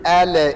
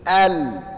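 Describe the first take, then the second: First: An extra vowel follows the L sound. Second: It ends cleanly on the L sound. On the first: The speaker calls it wrong. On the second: The speaker calls it right.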